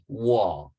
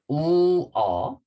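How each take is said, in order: First: The two vowels blend quickly into one syllable. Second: The two vowels are said slowly and apart. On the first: "So together, faster" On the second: "separate like this plus this vowel"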